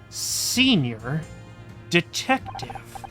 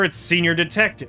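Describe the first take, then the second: First: It is said slowly and deliberately. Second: It is said at normal speed.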